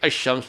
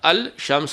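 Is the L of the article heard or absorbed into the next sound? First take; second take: absorbed; heard. First: The L is dropped and the sh is doubled. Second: The L is clearly pronounced before the sh. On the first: The speaker calls it right. "अशम्स पढ़ेंगे" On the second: The speaker calls it wrong. "यहाँ पर अल शम्स नहीं पढ़ेंगे"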